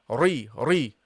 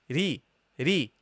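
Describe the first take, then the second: First: The r is pronounced heavy and full. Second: The r is pronounced light and thin. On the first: The speaker calls it wrong. "So you don't say ri ri" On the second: The speaker calls it right. "the ra with the kasra becomes light"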